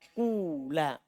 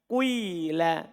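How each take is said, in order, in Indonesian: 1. Vokal pertama adalah bunyi u panjang murni. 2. Vokal pertama agak bercampur u ke i. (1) "Boleh ikhlas domma ... Kula" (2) "Sedikit domma kemudian kasro"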